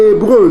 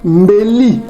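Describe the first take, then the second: First: The word begins with a vowel and ends breu. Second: The word begins with mb and ends li. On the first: The speaker calls it wrong. "c'est ça l'erreur que commettent les gens" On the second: The speaker calls it right. "Mbeli au lieu de hébreu"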